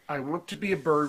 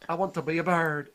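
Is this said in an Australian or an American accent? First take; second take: American; Australian. First: It is said in the speaker's usual accent. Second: It is said in an attempted Australian accent. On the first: "I won't try it because I have too much respect for Australians" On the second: "There we go"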